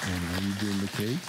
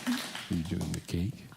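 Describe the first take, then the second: First: Said in the usual way. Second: Soft whispered aside, kept from the audience. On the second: Real, not acted. Host to his daughter about the cake, whispering. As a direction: hush it so the birthday surprise isn't spoiled.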